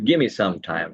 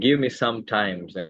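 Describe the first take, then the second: First: The words blend quickly, 'give me' becomes 'gimme'. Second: Each word is said separately and in full.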